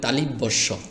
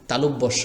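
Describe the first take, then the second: First: An 'i' vowel follows 'tal' in the word. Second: No vowel follows 'tal' in the word. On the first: The speaker calls it wrong. "আমরা অনেক সময় বলি তালিব্যস্য। তালিব বললে হবে না" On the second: The speaker calls it right. "তালব্যস্য বলবেন।"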